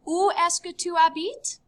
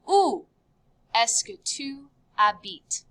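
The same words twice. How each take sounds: First: "Où est-ce que tu habites" in one run; high voice, rising on "habites"; connected question. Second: "Où" alone, pause, then the rest; measured model with "habites" falling; broken into parts. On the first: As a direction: ask it fluently, without a pause after "Où". Teacher then asks it as one question. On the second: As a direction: read the question piece by piece for learners. Teacher first reads question in parts. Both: Shown as a demonstration.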